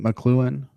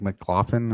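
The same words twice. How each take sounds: First: McLuhan said muh-KLOO-un; questioning McLuhan, stressed on the KLOO syllable; McLuhan pronunciation. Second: McLaughlin said muh-KLAH-fun; tentative McLaughlin, with "klah" and an f sound; alternative name pronunciation. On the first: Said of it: "is that the official pronunciation". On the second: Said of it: "I usually, like". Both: Shown as a demonstration.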